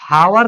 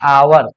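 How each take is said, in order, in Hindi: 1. शब्द की शुरुआत h की ध्वनि से होती है। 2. शब्द की शुरुआत स्वर की ध्वनि से होती है। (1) "हावर नहीं पढ़ाता" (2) "क्या पढ़ाता? आवर"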